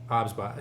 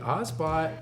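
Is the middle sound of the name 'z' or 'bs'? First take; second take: bs; z. First: The name is said with a 'bs' sound. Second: The name is said with a 'z' sound. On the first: The speaker calls it right. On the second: The speaker calls it wrong.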